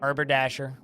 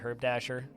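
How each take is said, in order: First: The name begins with a two-syllable 'arbor'. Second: The name begins with a one-syllable 'herb'. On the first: The speaker calls it right. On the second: The speaker calls it wrong.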